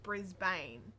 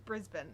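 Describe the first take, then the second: First: It is pronounced the way visitors say it. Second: It is pronounced the way locals say it. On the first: The speaker calls it wrong. "not Brisbane" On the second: The speaker calls it right. "it's Brisbane"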